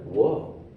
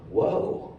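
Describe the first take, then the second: First: A soft, rising whoa of disbelief; stunned whoa. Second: A voiceless, airy whoa; breathless whoa. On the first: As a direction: let the amazement rise. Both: Retold or imitated. Stunned after being pushed back.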